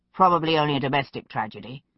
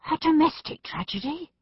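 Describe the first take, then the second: First: Said in the usual way. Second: High-pitched indignant question; rising outrage. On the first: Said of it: "Pitt said calmly". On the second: A narrator's reading. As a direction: echo it back in outraged disbelief. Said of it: "Macbeth's voice rose in outrage".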